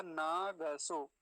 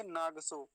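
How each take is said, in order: First: नागसो very slowly, full ग, naɡəso; correct full g. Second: नागसो with a half ग, naɡso; wrong half g. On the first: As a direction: open the ग fully in नागसो. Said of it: "ऐसा इसका उच्चारण". (नागसो, पूरा ग धीरे से) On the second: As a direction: clip the ग in नागसो. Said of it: "नागसो नहीं होगा". (नागसो, आधा ग (गलत)) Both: Shown as a demonstration.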